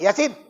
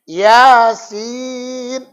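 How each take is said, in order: First: The word is clipped short and barked sharply. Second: The second syllable is long and drawn out. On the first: The speaker calls it wrong. "Enggak boleh dibentak-bentak" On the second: The speaker calls it right. "panjangan sinnya dia"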